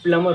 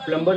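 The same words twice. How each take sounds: First: "प्लमर" with silent b; correct pronunciation. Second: "प्लम्बर" with the b sounded; wrong pronunciation. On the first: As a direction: say "प्लमर" as plum-er, no b. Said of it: "इसमें बी silent होता है". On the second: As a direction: say "प्लम्बर" with an audible b. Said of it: "प्लम्बर नहीं होती". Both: Shown as a demonstration.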